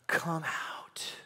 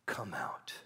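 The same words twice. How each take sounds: First: Gentle whispered summons; whispered call. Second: Soft unvoiced call; gentle whispered summons. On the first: Acted. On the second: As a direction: whisper the invitation. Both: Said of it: "Jesus is saying".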